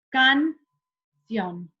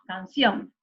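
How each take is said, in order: First: The syllables are said apart with a break. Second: The word is said whole without a break. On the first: Both syllables seem to carry the stress. The speaker calls it wrong. "yo no digo, para buscar la sílaba tónica, canción" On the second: Only the stressed syllable stands out. The speaker calls it right. "tengo que decir las dos juntas"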